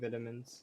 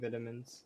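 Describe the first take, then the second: First: The word is pronounced the British way. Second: The word is pronounced the British way.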